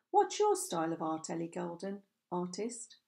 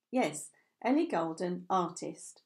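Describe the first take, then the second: First: Sarcastic. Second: Said in the usual way. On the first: Acted. Harry teasing Ellie by echoing her name, mildly sarcastic. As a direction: lightly tease her own words back at her. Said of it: "his tone sarcastic again". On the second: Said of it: "doing a silly little curtsy to accompany the words".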